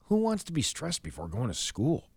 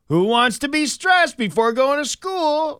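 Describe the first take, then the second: First: It is said in a serious, earnest tone. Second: It is said in a playful, game-like tone.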